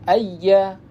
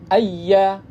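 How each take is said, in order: Both takes have the same delivery.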